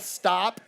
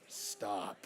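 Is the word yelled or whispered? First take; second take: yelled; whispered. First: The word is yelled loudly. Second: The word is whispered quietly.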